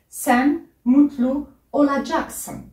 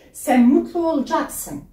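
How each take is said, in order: First: Every syllable is pronounced fully and carefully. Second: The last word is shortened in casual speech. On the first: This is the written form. "Je répète" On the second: This is how people say it in everyday life. "dans la vie de tous les jours, ils peuvent le, le prononcer"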